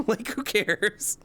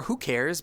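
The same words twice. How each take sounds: First: High and slow, laughing through it. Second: Said in the usual way. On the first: Real, not acted. Streamer laughing off work panic, laughing. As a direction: laugh it off, drawn out. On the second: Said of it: "I was like".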